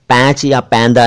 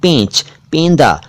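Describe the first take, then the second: First: "पैंच या पैंदा" with a broad ai; mispronounced "पैंच", "पैंदा" as paench, PAEN-da; wrong open vowel. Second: "पेंच, पेंदा" corrected to peynch, PEYN-da; correct close vowel. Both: Shown as a demonstration. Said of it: "पैंच या पैंदा नहीं".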